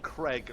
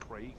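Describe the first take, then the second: First: The vowel sounds like the 'a' in 'crag'. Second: The vowel sounds like the 'ai' in 'craig'. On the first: This is how Americans say the name. The speaker calls it wrong. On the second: This is how the name is meant to be said. The speaker calls it right.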